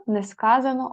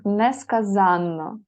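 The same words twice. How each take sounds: First: Несказано with stress on КА, single н; stress on second syllable. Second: Несказанно slowly, stress on ЗАН, long нн; stress on third syllable. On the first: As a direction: hit КА in несказано. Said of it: "несказано одна". (несказано: наголос на КА, коротке «н») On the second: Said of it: "несказанно дві". (несказанно: повільно, наголос на ЗАН) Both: Shown as a demonstration.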